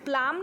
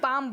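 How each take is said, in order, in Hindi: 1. इस शब्द में L की ध्वनि बोली जाती है। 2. L साइलेंट है, इसका उच्चारण नहीं होता। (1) "हम प्लाम नहीं बोलते" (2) "पाम बोलते हैं"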